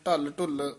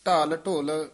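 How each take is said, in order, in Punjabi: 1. ਦੋਹਾਂ ਸ਼ਬਦਾਂ ਵਿੱਚ ਛੋਟੇ, ਕੱਟਵੇਂ ਸਵਰ ਹਨ। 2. ਦੋਹਾਂ ਸ਼ਬਦਾਂ ਵਿੱਚ ਪੂਰੇ, ਲੰਮੇ ਸਵਰ ਹਨ। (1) "ਨਹੀਂ ਕਹਿਣਾ" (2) "ਇਹ ਪੂਲੇ ਪਦ ਉਚਾਰਨ ਕਰਨੇ ਹੈ"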